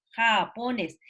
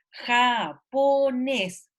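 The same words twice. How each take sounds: First: Said in the usual way. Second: Japonés muy lento, sílaba por sílaba; japonés estirado. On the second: Shown as a demonstration. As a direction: alarga cada sílaba de japonés para buscar la tónica. (japonés silabeado lento) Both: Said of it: "ellos tienen que decírselo".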